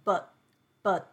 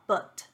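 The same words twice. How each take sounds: First: The final t is held back with an abrupt stop. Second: The final t is released with a puff of air. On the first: The speaker calls it right. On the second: The speaker calls it wrong.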